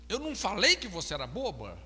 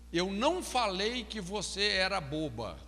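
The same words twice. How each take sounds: First: "falei" stressed, quicker, said as a question. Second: "não" stressed, said as a flat statement. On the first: Counselor demos the same sentence as a question. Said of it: "Já mudou totalmente". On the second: Counselor demos stress as a plain statement. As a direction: lean on "não", end falling like a plain denial. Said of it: "a tônica na frase pode mudar totalmente o sentido". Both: Shown as a demonstration.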